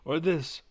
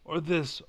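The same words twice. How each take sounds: The two takes are said the same way.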